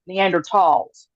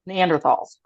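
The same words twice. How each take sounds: First: The middle consonant is a plain 't' sound. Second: The middle consonant is a 'th' sound. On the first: The speaker calls it right. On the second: The speaker calls it wrong.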